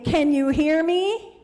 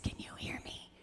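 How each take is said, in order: First: It is said very loudly. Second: It is said very quietly.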